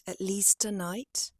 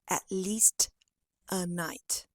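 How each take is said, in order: First: The t sound links straight into the next word. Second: The words are separated, not linked together. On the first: The speaker calls it right. "you can say" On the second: The speaker calls it wrong. "after you finish the T sound of least, you reshaped your mouth"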